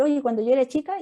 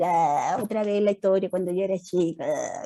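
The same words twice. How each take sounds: First: Said in the usual way. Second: Put-on lower, mildly bored child parroting mom; a hint of a fed-up kid imitating mum; bored kid mocking. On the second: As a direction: roll your eyes at the same old story, lightly. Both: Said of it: "y el hijo va a decir".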